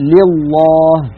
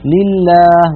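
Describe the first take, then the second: First: The L is heavy, with a full hollow sound. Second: The L is light, with a thin clear sound. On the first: The speaker calls it wrong. "ولا نقول لله" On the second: The speaker calls it right. "ونقول لله"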